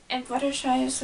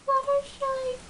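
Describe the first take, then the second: First: Said in the usual way. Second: "Fluttershy" squeaked much higher and softer; a timid little squeak of the name; shy Fluttershy. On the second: Retold or imitated. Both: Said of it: "she talks like this".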